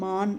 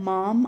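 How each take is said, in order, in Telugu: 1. ఈ పదం n శబ్దంతో ముగుస్తుంది. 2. ఈ పదం m శబ్దంతో ముగుస్తుంది. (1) "మాన్ అనాలి" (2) "ఇక్కడ మాం అనకూడదండి"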